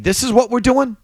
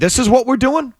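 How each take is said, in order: First: It is said as a plain, matter-of-fact statement. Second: It is said as an incredulous, mocking question. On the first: The team is announcing its plan. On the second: The speaker questions and disapproves of the choice.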